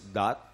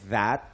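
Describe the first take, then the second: First: The word begins with a hard 'd' sound. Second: The word begins with a soft 'th' sound. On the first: The speaker calls it wrong. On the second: The speaker calls it right.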